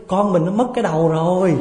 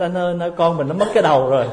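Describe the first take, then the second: First: High, loud panicked call to husband; wife jolted awake, calling out in mock panic; startled wife. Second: Higher, louder, fast mock panic cry; hammed-up wife shouting for her husband; calling out in panic. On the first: Wife waking at night cries to husband, mock panic. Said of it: "giật mình thức dậy". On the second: Wife cries out to husband about the baby, fast mock panic. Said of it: "thì lại la lên".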